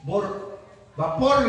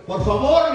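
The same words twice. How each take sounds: First: "Por vapor" said slowly, with a v sound for the f in favor; mispronounced por favor. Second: "Por favor" said louder and clearly, with a crisp f. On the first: Preacher mimics a man garbling his request: slow "Por vapor" with v for f. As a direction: drag out "Por vapor", the f blurred into v. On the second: Preacher repeats the request loudly and correctly: louder, crisp "Por favor". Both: Retold or imitated. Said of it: "Tampoco entendieron".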